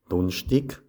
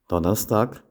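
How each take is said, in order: First: It is said with Sathmar Swabian dialect pronunciation. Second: It is said with Standard German pronunciation. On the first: "dann anschließend im Sattmar-Schwäbischen" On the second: "zuerst im Hochdeutschen"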